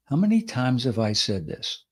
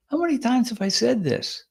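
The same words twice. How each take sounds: First: Said in the usual way. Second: Said very gently. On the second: Shown as a demonstration. Host showing how the dig sounds said gently. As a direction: coax it out gently, almost kindly. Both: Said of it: "that can be said very gently".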